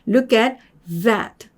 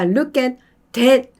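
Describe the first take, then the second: First: The last word starts with a voiced th. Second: The last word starts with a d-like sound. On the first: The speaker calls it right. "얘도 look at that, that, that 이렇게 하겠죠" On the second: The speaker calls it wrong. "이게 아니라"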